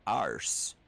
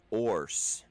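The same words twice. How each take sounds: First: Arse said with an open A and an R; Irish "arse". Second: Orse said with a rounded O and an R; Scottish "orse". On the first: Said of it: "So it'd be like A R". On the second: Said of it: "So it would be O R". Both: Shown as a demonstration.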